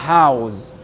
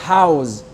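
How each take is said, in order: Both takes have the same delivery.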